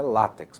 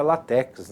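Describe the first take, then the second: First: Látex with stress on the first syllable, LÁ-tex; látex stressed at the start; correct pronunciation. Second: Látex with stress on the last syllable, la-TÉX; látex stressed at the end; common mispronunciation. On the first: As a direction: say látex as LÁ-tecs. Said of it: "o correto é látex". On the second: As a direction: say látex as la-TÉCS. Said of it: "Muita gente pronuncia látex". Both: Shown as a demonstration.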